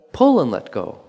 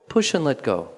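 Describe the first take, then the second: First: "Pull" hit firmly and a bit louder, "let go" falling off; accent on pull. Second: "Push" hit firmly, "let go" released lightly; accent on push. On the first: Teacher switching the accent for the class, with "Pull" stressed. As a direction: punch "Pull", then release. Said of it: "And then change it". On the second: Teacher cueing a movement class, with "Push" stressed. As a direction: lean into "Push", then let the rest fall away. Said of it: "you push in the upward direction is strong". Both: Shown as a demonstration.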